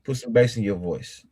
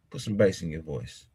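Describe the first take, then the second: First: Said in the usual way. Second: Bass in voice. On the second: Shown as a demonstration. Co-host coaching a tougher insult, lower bass voice. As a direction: repeat it lower and softer.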